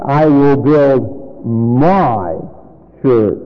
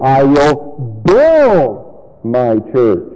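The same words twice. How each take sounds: First: Slow down and linger on "my"; stress on MY. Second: Slow down and stretch "build", then drop; big lingering emphasis on "build"; stress on BUILD. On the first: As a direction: set "my" apart with a long swell. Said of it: "notice the word my". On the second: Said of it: "Now we come across the word build". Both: Shown as a demonstration.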